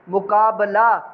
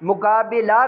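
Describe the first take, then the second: First: The vowel before the last syllable is a. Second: The vowel before the last syllable is i. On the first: The speaker calls it right. "इसी तर्ज पे पढ़ने हैं" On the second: The speaker calls it wrong. "गलत है"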